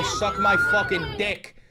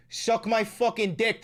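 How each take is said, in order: First: High slow defiant shout; defiant yell. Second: Said in the usual way. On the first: Retold or imitated. Streamer quoting a New Yorker defying the officers, defiant yell. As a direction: throw it in their face.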